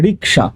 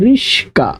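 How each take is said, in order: First: The middle cluster sounds like 'ksh'. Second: The middle cluster sounds like 'sk'. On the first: "কি উচ্চারণ করি রিকশা" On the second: "যে রিকশা চালক তিনি বলছেন রিস্কা"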